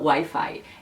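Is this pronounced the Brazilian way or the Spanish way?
Brazilian. It is said with a Brazilian Portuguese pronunciation. "elas não falam Wi-Fi"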